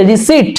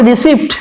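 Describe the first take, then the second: First: রিসিট with the p silent; correct pronunciation. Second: রিসিপ্ট with p sounded before the t; wrong pronunciation. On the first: Teacher giving English for the receipt, রিসিট with silent p. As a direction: say রিসিট, vowel straight into t. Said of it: "উচ্চারণটা হবে রিসিট". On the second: Teacher warning students off it, রিসিপ্ট with sounded p. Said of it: "প উচ্চারণ হবে না". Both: Shown as a demonstration.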